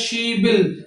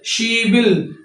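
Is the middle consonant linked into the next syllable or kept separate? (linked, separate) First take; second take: linked; linked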